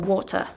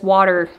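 First: It is said with a British accent. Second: It is said with an American accent.

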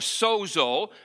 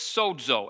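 First: The middle consonant is a plain z sound. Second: The middle consonant is a dz sound. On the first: The speaker calls it wrong. "we'd say Bozo or Sozo, but the Greek word is not pronounced that way" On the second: The speaker calls it right. "S-O-D-Z-O is how we would pronounce it"

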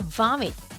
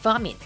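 First: The first sound is a B, closed lips. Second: The first sound is a V, teeth on lip. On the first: The speaker calls it wrong. "vomit이 아니라" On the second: The speaker calls it right. "V 사운드 물어주셔야 돼요"

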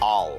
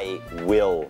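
First: The words merge into one short syllable. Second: Both words are said fully and separately. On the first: The speaker calls it right. "เราชอบควบคำกันนะครับให้มันสั้นเชื่อมคำเป็น" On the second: The speaker calls it wrong. "ฝรั่งคงจะไม่มีวันพูดว่า"

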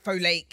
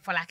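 First: The name is said with a foreign mispronunciation. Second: The name is said with native Nigerian pronunciation. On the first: This is how people abroad say it. The speaker calls it wrong. "And when I'm here, it's like Folake. It's just irritating" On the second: This is how people at home say it. The speaker calls it right. "people can just say Folake and pronounce it well"

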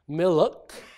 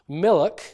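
First: An extra vowel is heard between the l and k. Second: No vowel is heard between the l and k.

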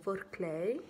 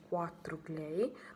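First: The number is read as an English word. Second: The number is read as an Italian word. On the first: The speaker calls it right. "questo 4 va letto in inglese" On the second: The speaker calls it wrong. "non si dice 4 clay"

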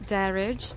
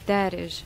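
First: The name is pronounced the English way. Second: The name is pronounced the Arabic way. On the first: "when I read it in English" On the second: "if you read it in Arabic, it's Darij"

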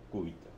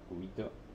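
First: The stress is on the first syllable. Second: The stress is on the second syllable. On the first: The name of the forearm bone. The speaker calls it right. "Con acento en la U" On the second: A small ice cube for drinks. The speaker calls it wrong. "Lo acentuaba en la I"

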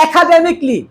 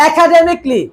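Both takes have the same delivery.

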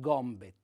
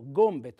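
First: The O vowel is said open. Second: The O vowel is said closed. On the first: The speaker calls it wrong. "non gombet" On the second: The speaker calls it right. "l'accento fonico è chiuso"

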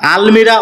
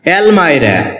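First: The second vowel sounds like 'ee'. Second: The second vowel sounds like 'eye'. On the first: The speaker calls it wrong. "এটাকে আমরা আলমিরা উচ্চারণ করে থাকি" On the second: The speaker calls it right. "যার সঠিক উচ্চারণ হচ্ছে অ্যালমাইরা"

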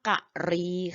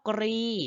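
First: It is two syllables, ka then ri. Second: It is one syllable with a kr cluster. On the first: It refers to an elephant. "ถ้าพูดเรื่องช้างเมื่อไหร่จะอ่านว่ากะรีค่ะ" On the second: It names the sharp spike on a shrimp's head. "ถ้าพูดเรื่องกุ้งเมื่อไหร่ ... อ่านว่ากรี"

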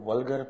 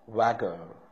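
First: It is said with an L, like 'vulgar'. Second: It is said without an L, like 'vagar'. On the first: The speaker calls it wrong. "कुछ लोग इसको वल्गर पढ़ते हैं, ये वल्गर नहीं है" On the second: The speaker calls it right.

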